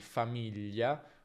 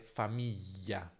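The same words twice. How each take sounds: First: The middle consonant is a lateral gli sound. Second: The middle consonant is a long y sound. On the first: The speaker calls it right. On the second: The speaker calls it wrong.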